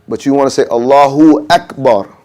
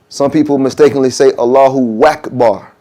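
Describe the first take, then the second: First: Akbar starts directly with its vowel. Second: A w sound comes before Akbar. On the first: The speaker calls it right. "you want to say" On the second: The speaker calls it wrong. "add a W to the to the beginning"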